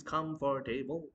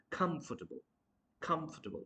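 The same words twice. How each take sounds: First: Comfortable chopped into "com-for-TAY-bul"; split syllables. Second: Comfortable as "KUMF-tuh-bul", higher; correct pronunciation. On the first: Teacher mimicking the mistake, comfortable split up. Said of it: "You cannot split the word like this". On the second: Teacher correcting learners, comfortable as "KUMF-tuh-bul". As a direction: run comfortable together after a stressed "kumf". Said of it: "try to pronounce". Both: Shown as a demonstration.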